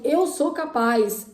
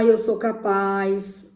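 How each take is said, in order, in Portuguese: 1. É dito de forma calorosa, com convicção real. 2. É dito de forma monótona, sem convicção. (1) "Então, assim" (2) "não adianta eu falar assim ... Sendo que a gente não tá vibrando naquilo"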